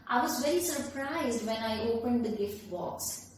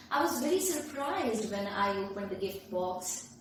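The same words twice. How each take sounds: First: Said in the usual way. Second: Mild expressive intonation on "very surprised"; added intonation. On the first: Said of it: "look at the way I speak the same sentence". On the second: Shown as a demonstration. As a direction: read it with a touch of expression, lifting "very surprised". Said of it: "I have added the intonation by adding my expression".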